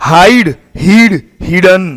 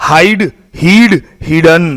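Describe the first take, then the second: Both takes have the same delivery.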